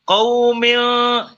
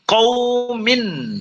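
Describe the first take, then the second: First: The final n is not pronounced clearly. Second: The final n is pronounced clearly. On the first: The speaker calls it wrong. "Kalau tidak jelas seperti apa? Seperti misalkan ada orang membaca qaumil ya, ... itu salah" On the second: The speaker calls it right. "Yang benar qaumin hadin anharin gitu"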